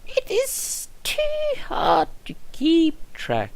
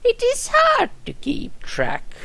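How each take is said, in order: First: Put-on high old nurse voice, slow; high old nurse, tired; first take. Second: Put-on much higher, slow, weary old nurse; retake. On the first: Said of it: "No, sorry, I said it wrong. Let's try again". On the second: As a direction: lean harder into the high frail voice. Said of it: "Let's try again".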